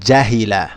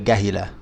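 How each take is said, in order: First: The word begins with a j sound. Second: The word begins with a hard g sound. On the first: This is the standard Arabic form. "In standard Arabic, this would be jim, j" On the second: This is the Egyptian form. "since I'm from Egypt, I just say gahila"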